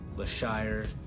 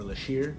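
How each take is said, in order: First: It is said with sh and ending in -ire. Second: It is said with sh and ending in -ir.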